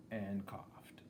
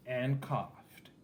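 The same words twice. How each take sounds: First: Softer and softer, trailing away; fading off. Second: Said in the usual way. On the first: A narrator's reading. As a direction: let the last one die away. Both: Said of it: "Herbert coughed and coughed".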